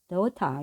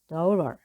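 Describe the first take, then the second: First: British accent, with the T pronounced very clearly. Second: American accent, with a softer T sound. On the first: "T 발음을 아주 분명히 해주죠. daughter 이렇게" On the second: "미국 발음은 daughter"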